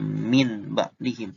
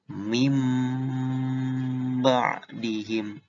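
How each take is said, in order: First: The first word ends with a clear n sound. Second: The first word ends with a nasalized m sound. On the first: The speaker calls it wrong. "bukan min ba'dihim" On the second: The speaker calls it right. "tapi mim ba'dihim"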